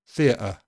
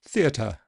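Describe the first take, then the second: First: The T is a glottal stop. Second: The T is slightly aspirated. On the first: It comes across as too casual. "A glottal stop sounds too casual" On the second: It comes across as too posh. "a slightly aspirated T sounds a bit too posh"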